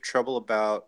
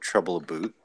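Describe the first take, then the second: First: About is said with its ordinary vowel. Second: About is said with a Canadian-style vowel.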